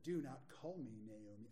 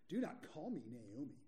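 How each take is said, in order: First: It is said in a plain reading voice. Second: It is said in a put-on witchy voice.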